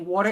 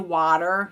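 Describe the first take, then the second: First: It is said in a New York accent. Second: It is said without a New York accent.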